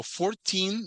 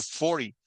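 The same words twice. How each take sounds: First: Put-on "fourteen" said slowly with a long, raised "-teen"; "fourteen" with a stressed ending. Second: "forty" stressed on "for-" and falling on "-ty"; "forty" with the front syllable stressed. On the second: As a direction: punch "for-" and keep "-ty" short. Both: Shown as a demonstration. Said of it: "Va diferente entonación".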